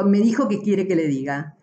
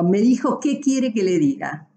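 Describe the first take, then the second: First: Said in the usual way. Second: "qué" stressed as a question word inside the sentence; accented qué. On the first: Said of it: "en un caso me está preguntando". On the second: Shown as a demonstration. Teacher marking the accent on "qué" for students. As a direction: lean on "qué" so it reads as asking. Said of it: "y si yo digo".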